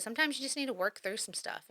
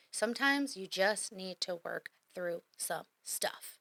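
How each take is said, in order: First: Said in the usual way. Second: Measured and drawn out, word by word; slow right down to let it sink in; slow, deliberate emphasis. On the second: Real, not acted. Coach repeating advice about working through stuff, slowly and deliberately.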